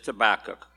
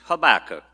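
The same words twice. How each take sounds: First: The stress falls on the second syllable. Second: The stress falls on the first syllable. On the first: The speaker calls it wrong. "I mispronounced it as Habakkuk" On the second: The speaker calls it right. "but it's Habakkuk, not tobacco"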